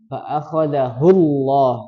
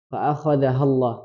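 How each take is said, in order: First: The pronoun syllable is said as 'hu'. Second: The pronoun syllable is said as 'ha'. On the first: The speaker calls it right. "Yang betul hu" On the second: The speaker calls it wrong. "hu-nya tadi terbaca ha"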